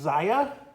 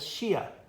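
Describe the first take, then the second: First: The name is said the American way. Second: The name is said the Spanish or Chinese way. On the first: "the designer calls it Zaya, and or at least that's how people butcher it in America" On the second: "the Spanish-speaking part of me wants to call this Shia"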